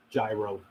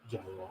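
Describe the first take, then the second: First: "gyro" said with a hard G, jai-ro; wrong gyro. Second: "Gyro" again, hard G, puzzled and low. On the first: Host reading a chat joke, "gyro" with hard G. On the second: Host puzzling over chat's joke, "Gyro" with hard G. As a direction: repeat "Gyro" confused, hard G. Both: Shown as a demonstration. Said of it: "The G is silent".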